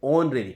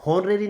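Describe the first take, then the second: First: Honorary with a silent h, starting on the o vowel; right pronunciation. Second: Honorary with an h sounded at the start; mock the wrong honorary, h sounded; wrong pronunciation. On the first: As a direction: say honorary opening on o, no h. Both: Shown as a demonstration. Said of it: "honorary नहीं".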